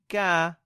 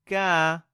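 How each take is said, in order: The two takes are said the same way.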